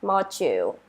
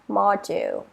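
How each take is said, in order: First: The middle consonant sounds like a j. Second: The middle consonant is a plain d sound.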